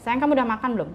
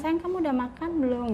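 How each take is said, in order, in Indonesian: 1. Suaranya meninggi dan terdengar tajam. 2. Suaranya tenang dan terdengar lembut. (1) "dengan nada yang tinggi" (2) "Tapi maksudnya"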